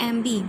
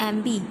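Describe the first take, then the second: No difference in how they are said.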